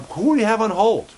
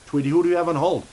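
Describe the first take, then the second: First: Pitched up high and a bit louder; excited high question. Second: Asked again in a different, slightly higher put-on voice; re-ask it in a character voice aimed at Tweety. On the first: Acted. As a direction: toss the question up high, eager. Host asks puppet co-host excitedly. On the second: Host asks Tweety again in voice.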